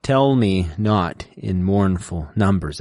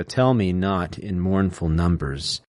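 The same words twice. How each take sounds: First: "Tell me not in mournful numbers" slowly, each first syllable hit; strong-weak beat, slow and even; trochaic stress demo. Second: "Tell me not in mournful numbers" said slowly, TELL, NOT, MOURN and NUM hit hard; stressed reading of "Tell me not". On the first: Showing students the trochee, slow with marked beats. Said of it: "That's trochaic". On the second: Teaching the trochee, slowly, with strong beats. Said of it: "Here you go". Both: Shown as a demonstration.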